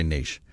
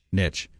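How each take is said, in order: First: Niche said neesh, with a long ee and a soft sh ending. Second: Niche said nitch, rhyming with itch; short i and a ch ending on Niche. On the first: Settles on his pick for the co-host, niche said neesh. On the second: Asks the co-host which way to say it, Niche said nitch. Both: Shown as a demonstration. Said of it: "Do you say niche or niche?".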